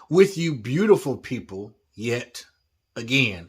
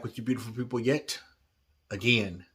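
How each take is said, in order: First: The phrase is spoken slowly and more clearly. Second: The phrase is spoken quickly and slurred together. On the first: "sounded like I was mumbling the first time" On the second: "I said that too fast"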